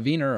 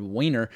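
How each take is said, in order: First: "Wiener" said with a V, as VEE-ner; V-sound pronunciation. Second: "Wiener" said with a W, as WEE-ner; W-sound pronunciation. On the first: Reading a producer's surname, unsure, trying the V sound. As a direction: start "Wiener" with a German-style V. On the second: Reading a producer's surname, offering the alternative W sound. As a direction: start "Wiener" with an English W. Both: Shown as a demonstration. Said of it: "Wiener, or Wiener".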